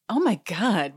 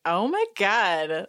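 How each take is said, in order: First: Said in the usual way. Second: Slow, drawn-out, delighted oh my God; impressed oh my God. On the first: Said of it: "Andy says". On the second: Retold or imitated. Host enjoying the diva drama, slow and relishing. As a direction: savour it like he's secretly into it. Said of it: "he says it in a way that's like".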